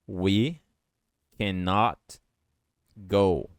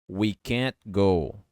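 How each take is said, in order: First: 'Cannot' is said in full, two syllables. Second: 'Cannot' is contracted to one syllable, 'can't'. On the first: "Cannot quer dizer não pode" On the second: "Você pode juntar essas duas palavras falando can't"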